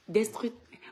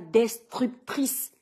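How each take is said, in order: First: The word is said quickly and comes out garbled. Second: The word is said slowly and carefully articulated. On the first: The speaker calls it wrong. "Si je parle vite, ça ne va pas sortir" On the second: The speaker calls it right. "il faut que je j'appuie ça bien, comme ça"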